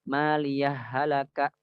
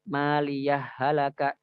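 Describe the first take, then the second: No difference in how they are said.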